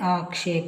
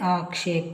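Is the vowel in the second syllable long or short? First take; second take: long; long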